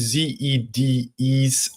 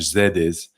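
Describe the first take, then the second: First: The acronym is said with English pronunciation. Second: The acronym is said with Spanish pronunciation.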